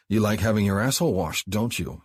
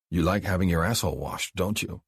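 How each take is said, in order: First: More insistent tease. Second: Teasing question. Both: Acted. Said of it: "he repeated".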